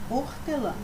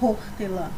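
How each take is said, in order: First: The word starts directly with the o vowel. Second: The word starts with an audible breathy h sound. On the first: The speaker calls it right. "é hortelã" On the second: The speaker calls it wrong. "Não falamos hortelã"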